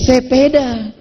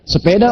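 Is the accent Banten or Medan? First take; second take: Medan; Banten. First: It is said in a Medan accent. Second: It is said in a Banten accent.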